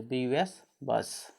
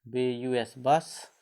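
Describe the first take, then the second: First: Slow spelling. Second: B U S, letter by letter, very slow, then बस; very slow spelling. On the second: (बहुत धीरे अक्षर-अक्षर बोलकर) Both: Shown as a demonstration. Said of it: "अ।".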